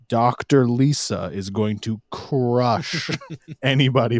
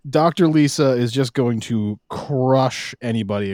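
First: The sentence is spoken slowly and deliberately. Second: The sentence is spoken at a normal, quicker pace.

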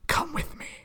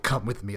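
First: It is said in a crazed, excited whisper. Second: It is said in a dour, gravelly Batman voice.

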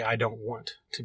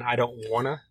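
First: 'Want to' is said as two full words. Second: 'Want to' is run together as 'wanna'. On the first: This is how the band actually says the title. The speaker calls it right. "They say I don't want to be me" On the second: This is the habitual way from another singer's version. The speaker calls it wrong. "I'm so used to saying I don't wanna"

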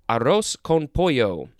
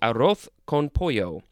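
First: Arroz ends with a plain S sound. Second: Arroz ends with a lisped TH sound.

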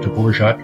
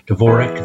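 First: The name has a Czech-like pronunciation. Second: The name has a local American pronunciation. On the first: This is closer to the original pronunciation. The speaker calls it right. "closer to the real pronunciation" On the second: This is how locals in Iowa say it. The speaker calls it wrong. "they call him out there in Iowa now"

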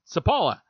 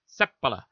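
First: The stress is on a later syllable. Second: The stress is on the first syllable. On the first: This is how people locally say the name. "everybody here was calling him" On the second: This is the Finnish way of saying the name. "accents on the first syllable, and you kind of say it quickly after that"

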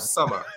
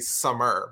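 First: The final R sound is dropped. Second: The final R sound is pronounced. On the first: "I can't say ERs at the end" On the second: "I can say summer, but it sounds so weird"

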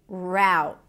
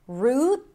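First: The vowel is an 'ow' sound, as in now. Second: The vowel is a tense 'oo' sound. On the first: "Ow as a now" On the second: "The first one is an R sound, then the tense oo, root with a held T at the end"

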